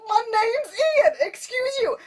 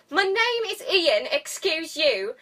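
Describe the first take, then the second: First: High, drawn-out indignant whine; mock-offended squeal, much higher; offended intern. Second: High, posh British indignation. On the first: Intern correcting Darcy on his name, high offended whine. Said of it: "he keeps getting offended". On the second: Acted. Offended intern correcting his name, posh British accent. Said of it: "Except all posh".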